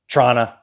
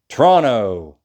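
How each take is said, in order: First: The word is clipped very short, like 'Trana'. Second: The word is squeezed into about two syllables. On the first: The speaker calls it wrong. "or Trana" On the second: The speaker calls it right. "It's kind of only two syllables"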